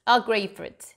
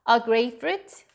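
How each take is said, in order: No difference in how they are said.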